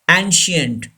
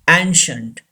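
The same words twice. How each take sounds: First: The middle consonant is an s sound. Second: The middle consonant is an sh sound. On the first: The speaker calls it wrong. "Don't say ancient. It's wrong" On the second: The speaker calls it right. "I gives the sound sh"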